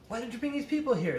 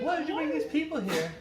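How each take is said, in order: First: It is said in a plain voice. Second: It is said in a high, sexy voice.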